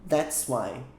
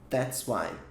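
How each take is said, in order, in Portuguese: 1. As duas primeiras palavras se juntam em uma só sílaba. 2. As duas primeiras palavras se juntam em uma só sílaba.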